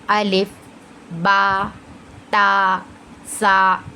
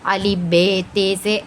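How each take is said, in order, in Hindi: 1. अक्षरों के नाम 'ah' स्वर में खत्म होते हैं। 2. अक्षरों के नाम 'ay' स्वर में खत्म होते हैं। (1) "उसे कैसे पढ़ेंगे, अलिफ बा ता सा, कुछ इस तरीके से हम पढ़ेंगे" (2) "उसे अलिफ बे ते से ऐसे नहीं पढ़ना है"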